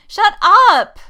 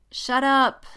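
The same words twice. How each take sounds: First: Very high, very loud outburst; flustered shout. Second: High, loud, short protest; embarrassed warning. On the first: Jessica silences Poe about her crush, shouting. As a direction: shout down your teasing friend. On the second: Jessica cuts Poe off, flustered. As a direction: cut your friend off, flustered. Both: A narrator's reading.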